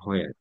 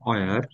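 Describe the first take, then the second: First: The word begins with a breathy h sound. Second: The word begins with a plain w sound. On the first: "বেশিরভাগ মানুষই হয়ার বলে ফেলে" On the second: "উচ্চারণ যেটা সেটা হচ্ছে অয়ার"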